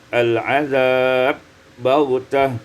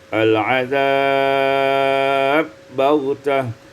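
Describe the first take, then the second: First: The lengthened vowel is held briefly. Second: The lengthened vowel is held moderately long.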